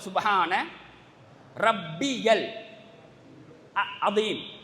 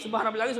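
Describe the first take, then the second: First: The middle 'ya' sound is clearly pronounced. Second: The middle 'ya' sound is dropped. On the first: The speaker calls it right. "சரியாக உச்சரிப்பு" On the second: The speaker calls it wrong. "அந்த இடையில வந்து அந்த யா நாங்க மொழிறது இல்லை"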